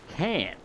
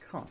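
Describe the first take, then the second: First: It is said in an American accent. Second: It is said in a British accent.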